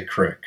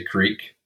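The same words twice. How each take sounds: First: "crick" with a short i, rhyming with brick; own regional pronunciation. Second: "creek" with a long ee, rhyming with seek; standard pronunciation. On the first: Host showing the guest a local word, short-i "crick". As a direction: say "crick" with the short vowel of "sick". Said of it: "so I say crick". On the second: Host asking the guest which form they use, long-ee "creek". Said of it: "Do you say creek?". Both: Shown as a demonstration.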